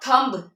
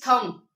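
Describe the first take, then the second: First: The final b is pronounced. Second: The final b is silent. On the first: The speaker calls it wrong. "It is not थंब" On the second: The speaker calls it right. "अगर बी एम के बाद है तो आपने उसको silent करना है"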